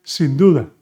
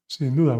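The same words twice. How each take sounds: First: "sin duda" said louder, stress on "duda"; clear, loud teaching demo; emphatic model phrase. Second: Said in the usual way. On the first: Shown as a demonstration. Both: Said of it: "You could also say".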